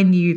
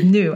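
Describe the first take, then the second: First: Said in the usual way. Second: Knew said with no y glide, as noo; Aussie knew. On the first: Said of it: "Instead of". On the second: Retold or imitated. Guest imitating Lizzie's Australian knew, noo with no y. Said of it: "she says".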